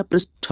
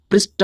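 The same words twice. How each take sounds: First: पृष्ठ ending in aspirated ठ, prish-tha; correct aspirated ending. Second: पृष्ठ ending in a plain ट, prisht-a; wrong unaspirated ending. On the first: Teacher giving students the right spelling, पृष्ठ said with aspirated ठ. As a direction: end पृष्ठ on a puff of breath. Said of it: "पृष्ठ होता है". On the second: Teacher rejecting the wrong spelling, पृष्ठ said with plain ट. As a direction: end पृष्ठ on a hard T without breath. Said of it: "पृष्ठ नहीं होता". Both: Shown as a demonstration.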